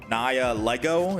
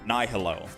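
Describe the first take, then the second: First: The g is pronounced, as in lego. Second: The g is left out entirely. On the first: "Someone in my chat is saying I have to pronounce it Naya Lego. Is it Lego?" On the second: "I thought the G was silent"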